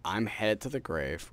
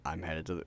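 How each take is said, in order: First: "I'm headed to the grave" said higher, louder and slow; proper catchphrase delivery. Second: Stumbling, cut-off catchphrase; fumbled line. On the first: Shown as a demonstration. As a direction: give "I'm headed to the grave" as a slow, high, loud sign-off. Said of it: "the way it's supposed to go is". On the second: Real, not acted. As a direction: trips and breaks off mid-phrase. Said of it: "Say I fuck it up".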